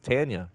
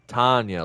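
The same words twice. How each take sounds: First: The first syllable does not sound like 'Ton'. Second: The first syllable sounds like 'Ton' in Tonka. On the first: This is the other person's name. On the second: This is the cousin's name, spelled with an O.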